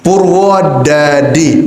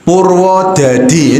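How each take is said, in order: First: Slow light Purwodadi without Javanese accent; Quranic clean pronunciation. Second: Slow heavy Javanese medok Purwodadi; Javanese medok accent. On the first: Teacher shows students a Purwodadi with no Javanese accent. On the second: Teacher shows students a Javanese medok Purwodadi. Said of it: "gini, medok". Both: Shown as a demonstration.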